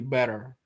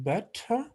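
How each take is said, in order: First: The middle consonant is a single quick flap. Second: The middle consonant is a clear t sound. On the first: "in American it will be better" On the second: "British pronunciation better"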